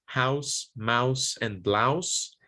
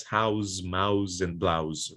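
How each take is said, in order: First: "house, mouse, blouse" ending in a hissed s; voiceless S ending. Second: "house, mouse, blouse" ending in a buzzed z; mispronounced Z ending. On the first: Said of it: "voiceless alveolar fricative S". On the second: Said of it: "are commonly mispronounced as house". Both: Shown as a demonstration.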